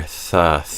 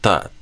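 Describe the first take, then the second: First: The sound flows smoothly with light airflow. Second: The sound stops abruptly, almost like a T. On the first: The speaker calls it right. "Instead, we want to hear" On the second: The speaker calls it wrong. "too much pressure if you're kind of stopping the sound and starting the sound"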